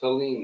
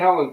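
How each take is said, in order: First: The name ends with a long 'leen' sound. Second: The name ends with a short 'len' sound. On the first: The speaker calls it right. "it's Helene, the way it's spelled" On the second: The speaker calls it wrong. "Not Helen"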